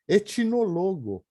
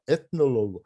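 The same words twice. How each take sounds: First: A ch sound with an added i vowel. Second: A plain t sound runs straight into n. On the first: The speaker calls it wrong. "a gente não fala mais o t, fala o ch" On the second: The speaker calls it right. "et e não põe o i no aqui"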